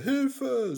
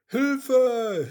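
First: Desperate call. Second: Loud, higher, desperate call; desperate cry for help. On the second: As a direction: scream for help from the water. (lauter verzweifelter Hilferuf) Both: Acted. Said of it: "rief Mimi laut und verzweifelt".

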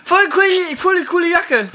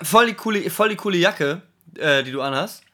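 First: High-pitched, loud, mock-casual compliment; breezy pickup line, pitched way up; casual flirty compliment. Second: Croaky, throat-clearing, awkward compliment; rusty voice after not talking for long; frog in the throat. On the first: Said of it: "oder man sagt einfach ganz lösig". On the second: Pretend. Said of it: "übel den Frosch im Hals".

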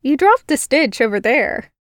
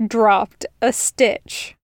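First: Put-on girl pointing out his mistake; teasing human girl. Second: Said in the usual way. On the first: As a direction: needle him lightly. Girl's voice scolding the spider Fae.

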